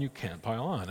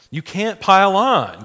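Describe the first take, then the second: First: Said in the usual way. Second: "pile on" said loud, high and slow, hammered home; emphatic. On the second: Shown as a demonstration. Teacher insisting to the class, slow loud emphasis. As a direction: drive home "you can't pile on" slowly and forcefully. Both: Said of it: "Like, you can't pile on".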